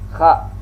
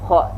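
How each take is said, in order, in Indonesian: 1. Bunyi ini dibuat dengan bibir tidak membulat. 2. Bunyi ini dibuat dengan bibir membulat. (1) "Lidah bibir kita tidak ikut membulat ya" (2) "Jangan seperti ini"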